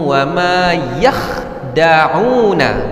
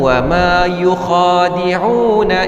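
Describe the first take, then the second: First: The verb is said short, as yakhda'una. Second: The verb is said long, as yukhadi'una. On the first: This is one accepted reading of the verse. "mereka tak baca yakhda'un" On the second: This is another accepted reading of the same spelling. "mereka baca yukhadi'un"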